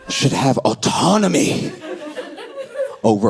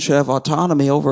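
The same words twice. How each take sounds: First: It is spoken slowly with heavy pauses. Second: It is spoken at an ordinary, quick pace.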